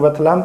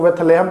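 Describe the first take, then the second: First: बेथलहम with short "la" as the middle syllable; variant pronunciation. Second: बेथलेहम with "lay" as the middle syllable; variant pronunciation. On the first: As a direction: say बेथलहम as beth-la-ham, short "a". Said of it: "कुछ लोग बेथलहम कहते हैं". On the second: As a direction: say बेथलेहम as beth-lay-ham, long "e". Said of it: "कुछ लोग बेथलेहम कहते हैं". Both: Shown as a demonstration.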